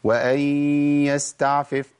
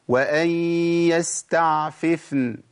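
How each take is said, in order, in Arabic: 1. تندمج الفاءان في فاء واحدة. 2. يُنطق الفاءان بوضوح كلٌّ منهما على حدة. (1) "فين الفاءين؟ ده راحوا، وكأني بجيب فاء واحدة" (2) "عندي فاءين، فيف فاء مكسورة وفاء ساكنة"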